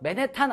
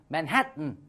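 First: The last syllable has a full 'tan' vowel. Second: The last syllable is a reduced 'tun' sound. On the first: The speaker calls it wrong. "맨해탄 아니야" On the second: The speaker calls it right.

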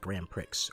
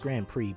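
First: The final x is sounded. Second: The final x is silent. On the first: "but it has an X in it. So you want to say like" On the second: "It's pronounced Grand Prix"

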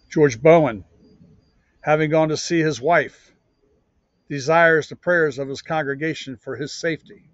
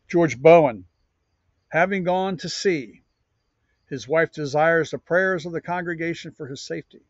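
First: There is a pause right after 'wife'. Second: There is a pause right after 'sea'.

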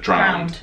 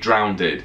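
First: The word ends in a single 'd' sound. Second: The word ends with an extra 'ded' syllable. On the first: This is the standard form. The speaker calls it right. "instead of drowned" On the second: This is the form some speakers are said to use. The speaker calls it wrong. "Americans say drowned"

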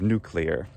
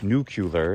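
First: The word keeps its original harder sound sequence. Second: The word is reshaped into an easier sound sequence. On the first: It is the standard form. "instead of nuclear" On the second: It is the common popular variant. "a more euphonic nuclear"

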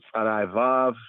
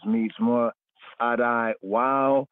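First: The letter name begins with a v sound. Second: The letter name begins with a w sound.

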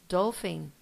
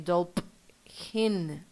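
First: The middle ph is said with an f sound. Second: The middle ph is said with a p sound. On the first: The speaker calls it right. "we say f" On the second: The speaker calls it wrong. "We don't say dolphin"

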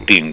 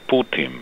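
First: The word ends with a clear N sound. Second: The word ends with a sound close to M. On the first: The speaker calls it wrong. "No Putin, como sí. dicen algunos" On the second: The speaker calls it right. "Casi como si fuera M final, pero no es M"

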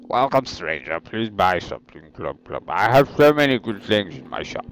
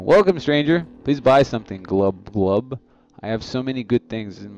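First: It is read in a put-on character voice. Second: It is read in his normal voice.

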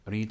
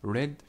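First: It is said with a long vowel, like 'reed'. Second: It is said with a short vowel, like 'red'. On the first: The action happens in the present. "read في المضارع" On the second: The action happened in the past. "red في الماضي، أكني بقول اللون الأحمر"

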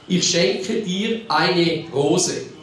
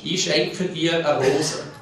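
First: It is said in Standard German. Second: It is said in Swiss German dialect. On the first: "Das heißt auf Hochdeutsch" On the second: "Das ist jetzt Schweizerdeutsch"

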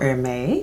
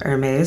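First: The name is said in a fancy, posh way. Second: The name is said in a plain, everyday way.

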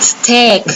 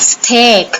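No difference in how they are said.

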